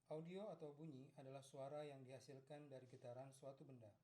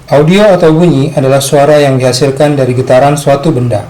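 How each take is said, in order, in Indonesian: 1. Suaranya terekam sangat lirih, hampir tidak terdengar. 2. Suaranya terekam terlalu keras dan pecah. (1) "Settingan audio di kamera akan saya set paling rendah ... Hampir tidak terdengar" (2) "Ini adalah contoh audio clipping"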